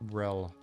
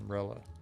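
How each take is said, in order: First: The word ends without an extra vowel sound. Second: The word ends with an extra vowel sound. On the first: The speaker calls it right. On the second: The speaker calls it wrong.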